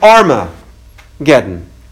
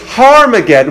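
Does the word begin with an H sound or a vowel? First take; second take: vowel; H sound. First: The word begins directly with a vowel. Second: The word begins with an H sound. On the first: It means the battle of Megiddo. "take the H off" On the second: It means the Mount of Megiddo. "When you put the H sound in front of it"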